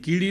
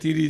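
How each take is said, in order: First: It starts with k and has d inside. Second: It starts with t and has r inside. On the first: "કીડી નો આવડે એને" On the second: "છોકરું તોતડું બોલે"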